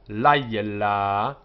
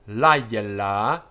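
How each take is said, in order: The two takes are said the same way.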